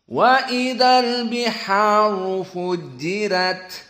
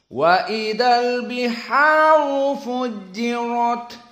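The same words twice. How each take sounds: First: The r in the last word sounds light. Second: The r in the last word sounds heavy. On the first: This is the Warsh reading. "bagi qiraah wars ada satu tafkhim saja" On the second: This is the majority reading. "bagi qiraah jumhur ayat ini ada dua tafkhim"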